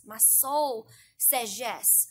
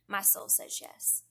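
First: Very slow, stretched prayerful yes; drawn-out prayer. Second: Slow whisper of "my soul says yes"; whispered prayer. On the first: Speaker lingering over her yes to God, very slow. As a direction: linger on every word of "My soul says yes". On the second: Speaker closing her prayer to the Lord in a whisper. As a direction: breathe it out as a private whisper. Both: Shown as a demonstration. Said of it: "we all have to come to that point where we say".

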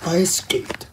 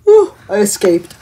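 First: Soft echo. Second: Louder relieved burst after escaping; relieved exclaim. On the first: Quiet echo of escape. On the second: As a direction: blow out relief, then say you made it. Relief after escape, then echoed softly. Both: Acted.

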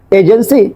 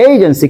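First: এজেন্সি starting on pure "e"; wrong pronunciation. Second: এজেন্সি starting with "ey"; correct pronunciation. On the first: Teacher shows what not to say, এজেন্সি mispronounced with plain "e". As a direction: say "e-jensi", no opening glide. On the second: Teacher corrects agency for learners, এজেন্সি with "ey" glide. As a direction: say "EY-jensi" with a gliding first vowel. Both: Shown as a demonstration. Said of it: "not agency".

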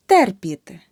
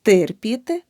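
First: Терпіти with a clear е after т; correct vowel demo. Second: Терпіти with и after т; the mistake in терпіти, и for е; wrong vowel demo. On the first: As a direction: say терпіти as "TER-pity", first syllable punched. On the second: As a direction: say терпіти wrongly as "tyr-pity". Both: Shown as a demonstration. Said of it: "Не".

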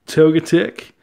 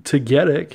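First: "Togetic" with a long O, stressed up front, rising at the end; first-syllable stress. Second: "Togetic" with a short first vowel, stress on GET; second-syllable stress. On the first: Collector offers one way to say the card's name, "Togetic" as TOH-guh-tick. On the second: Collector offers the other way to say it, "Togetic" as tuh-GET-ick. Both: Shown as a demonstration. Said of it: "however you wanna say it".

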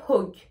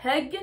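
First: Hog with a clear rounded o; O vowel. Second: Hug with an "eu" vowel. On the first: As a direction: keep hog on o, not uh. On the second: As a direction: keep hug on uh, not o. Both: Shown as a demonstration. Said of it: "la différence entre hug et hog".

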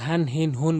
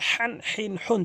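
First: হান, হিন, হুন with an easy plain h; no pressure on the h of হান, হিন, হুন; wrong light h. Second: হ্যান, হিন, হুন with a tight pharyngeal h; pressed throat h. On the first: Teacher showing most people's mistake, light h in হান, হিন, হুন. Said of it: "অধিকাংশ লোক হান, হিন, হুন বলে". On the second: Teacher telling learners to press, strong h in হ্যান, হিন, হুন. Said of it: "চাপ দিয়ে বলবেন". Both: Shown as a demonstration.

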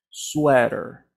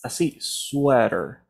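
First: Sweater with a soft r; soft model. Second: Sweater said slowly, with a very soft r; soft model. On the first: Teacher shows students a soft Sweater. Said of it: "de una manera mucho más suave". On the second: Teacher shows students a slow, soft sweater. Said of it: "con una R muy suave". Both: Shown as a demonstration.

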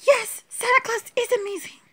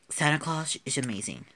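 First: Much higher, tiny toy voice; high-pitched play voice agreeing; squeaky doll voice. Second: Said in the usual way. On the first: Acted. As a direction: chirp it as the little doll. Same line in doll voice.

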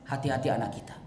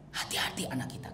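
First: Said in the usual way. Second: Hushed warning. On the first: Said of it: "repeated warning". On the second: Shown as a demonstration. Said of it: "repeated warning, unvoiced".

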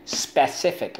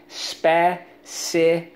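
First: Said in the usual way. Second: "Specific" drawn out slowly, spe, ci, fic; teacher's slow, higher breakdown of "Specific"; syllable by syllable. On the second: Shown as a demonstration. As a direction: sound out "Specific" in separate syllables. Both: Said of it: "let's go".

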